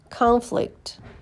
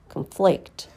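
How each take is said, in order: First: The stress falls on the first syllable. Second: The stress falls on the second syllable. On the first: It is a noun. "First, you hear the noun" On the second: It is a verb. "and then the verb"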